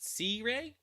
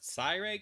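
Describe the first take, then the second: First: The first syllable sounds like 'see'. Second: The first syllable sounds like 'sigh'. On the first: This is how most people say it. "a lot of people pronounce it C-Ray" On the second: This is how the name's owner says it. "I pronounce it Siray because of like I like the word I there"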